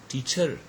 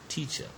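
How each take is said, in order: First: The stress is on both or the last syllable. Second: The stress is on the first syllable. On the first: The speaker calls it wrong. "stressing both of the syllables or stressing the last one" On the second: The speaker calls it right. "So the first syllable is stressed"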